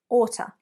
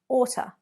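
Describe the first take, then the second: First: It is squeezed into one reduced word. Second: It is squeezed into one reduced word.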